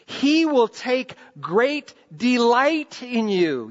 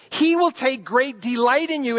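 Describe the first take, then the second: First: Slow, deliberate, each word weighed; slow, measured scripture read. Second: Emphatic restatement, "will" stressed; emphatic repeat. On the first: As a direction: read it slowly like a promise. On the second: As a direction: drive the promise home on "will". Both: Shown as a demonstration.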